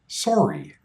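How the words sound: The first vowel is a strong, rounded O. This is the standard regional pronunciation. "The standard Canadian pronunciation is sorry, a strong O sound"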